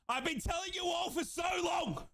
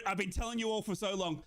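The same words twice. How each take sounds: First: High, insistent fan's yell; vindicated shout. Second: Said in the usual way. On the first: Real, not acted. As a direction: raise it high, shouting that you knew. Repeats, building to a shout.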